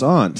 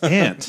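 First: Aunt is said with a Massachusetts pronunciation. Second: Aunt is said with a Utah pronunciation. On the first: "in Mass it's aunt" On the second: "in Utah it's aunt"

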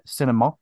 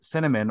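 First: It is said in a French accent. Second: It is said in a plain English accent.

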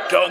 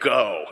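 First: It is said very loudly. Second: It is said at a normal volume.

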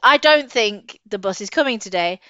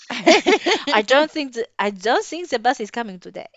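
First: It is said in the speaker's natural accent. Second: It is said in an attempted foreign accent. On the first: "So I'm not doing a German accent" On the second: "No, that's not even German"

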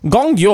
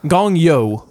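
First: It is said in a put-on foreign accent. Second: It is said in a plain American accent. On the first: The speaker calls it wrong. "As don't do the accent" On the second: The speaker calls it right.

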